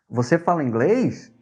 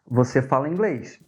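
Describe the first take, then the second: First: It is said with question intonation. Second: It is said with statement intonation. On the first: It asks a question. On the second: It states a fact.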